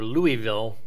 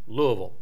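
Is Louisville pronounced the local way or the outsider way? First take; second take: outsider; local. First: It is pronounced another way outsiders say it. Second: It is pronounced the way locals say it. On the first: The speaker has never been there. The speaker calls it wrong. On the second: The speaker has lived there. The speaker calls it right.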